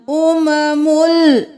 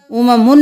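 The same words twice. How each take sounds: First: Slow chanted "उममुल" ending in l; joined into lam. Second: Quick spoken "उममुन" ending in n; wrong ending. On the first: Teacher shows the correct reading, chanted "उममुल" ending in l. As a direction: hold "उममुल" and close on a clear l. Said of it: "मीम दो पेश लाम मुल". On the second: Teacher shows what not to do, "उममुन" ending in n. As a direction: say "उममुन" with n in place of l. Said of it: "उममुन नहीं करना". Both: Shown as a demonstration.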